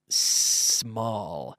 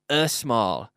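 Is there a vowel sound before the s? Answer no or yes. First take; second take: no; yes. First: The word begins directly with the s sound. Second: An extra vowel is added before the s. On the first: The speaker calls it right. "estoy diciendo small sin" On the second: The speaker calls it wrong. "no estoy diciendo a small, que no hay ningún e"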